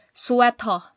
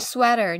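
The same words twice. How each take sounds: First: Sweto said as su-eh-to, Korean way; Korean pronunciation. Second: Sweater said the English way, sweh-ter; English pronunciation. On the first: Teacher contrasting Korean with English, Korean way. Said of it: "pronounce on rag". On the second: Teacher contrasting English with Korean, English way. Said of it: "pronounce sa English". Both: Shown as a demonstration.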